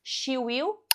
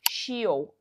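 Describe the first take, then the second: First: Will is said in full as separate word. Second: Will is shortened and joined to the pronoun.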